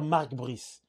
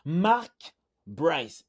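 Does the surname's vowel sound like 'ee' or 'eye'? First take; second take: ee; eye. First: The surname has an 'ee' vowel sound. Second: The surname has an 'eye' vowel sound. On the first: The speaker calls it wrong. "il ne faut pas dire Mark Brice" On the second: The speaker calls it right. "Il faut dire Mark Bryce"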